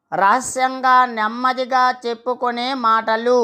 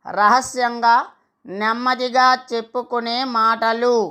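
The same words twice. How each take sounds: The two takes are said the same way.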